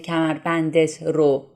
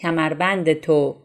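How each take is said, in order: First: The object marker is said as a separate syllable. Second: The object marker is merged into the preceding word. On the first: The speaker calls it wrong. "we don't say کمربندت رو" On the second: The speaker calls it right. "We say کمربندتو"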